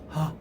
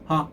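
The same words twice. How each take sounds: First: A breathy, irregular sound with loose closure. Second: A crisp, firmly caught laugh-like onset. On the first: The vocal folds are spread apart, as with nodules. The speaker calls it wrong. "대개 성대 결절이 있으신 분은요, ... 이런 식으로 소리가 나요" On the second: The vocal folds are kept properly close. The speaker calls it right. "하 하는 게 성대 간격이 적절하게 유지가 되는 겁니다"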